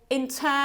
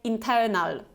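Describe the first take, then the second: First: The last syllable has a short, relaxed schwa. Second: The last syllable has a full, clear vowel. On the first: The speaker calls it right. "it sounds much better" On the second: The speaker calls it wrong. "than if we say internal"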